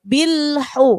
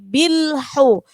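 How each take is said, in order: The two takes are said the same way.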